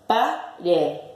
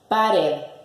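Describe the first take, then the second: First: The word is broken into separate syllables. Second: The word is said smoothly as one unit.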